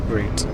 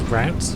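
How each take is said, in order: First: It is said with a British pronunciation. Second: It is said with an American pronunciation. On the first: "The default route" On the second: "or route, if you will, if you're a Yank"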